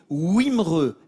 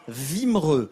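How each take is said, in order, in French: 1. Le nom commence par un son W. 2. Le nom commence par un son V. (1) "on dit Wimereux" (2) "et non pas Vimereux"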